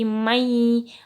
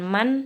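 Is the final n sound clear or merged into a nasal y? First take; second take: merged; clear. First: The n merges into a held nasal y. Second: The word ends with a clear n sound. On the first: The speaker calls it right. "tapi mai ... masuk dengan mendengung ditahan" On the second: The speaker calls it wrong. "bukan man"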